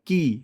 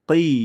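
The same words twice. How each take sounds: First: The k sound is plain, like Bengali ki. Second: The k sound is made deep in the throat. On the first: The speaker calls it wrong. "যেন এমন না হয় কি" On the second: The speaker calls it right. "কফ জের কিন্তু হবে কি"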